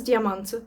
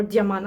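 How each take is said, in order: First: "Diamant" with the final T pronounced; sounded final T. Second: "Diamant" French-style, the final T dropped; silent final T. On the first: Reading a French perfume name, "Diamant" with its T sounded. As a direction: say "Diamant" ending on an audible T. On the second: Second guess at a French name, "Diamant" with silent T. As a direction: end "Diamant" on the vowel, no T. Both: Shown as a demonstration. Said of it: "you don't pronounce half of them".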